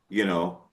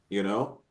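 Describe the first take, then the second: Both takes have the same delivery.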